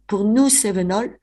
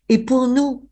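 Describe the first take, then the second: First: Said in the usual way. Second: "pour nous" lifted high and pressed hard; emphatic repeat. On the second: Real, not acted. Historian to host, insisting on the Cévenol loss, stressed.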